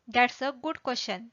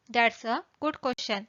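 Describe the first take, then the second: No difference in how they are said.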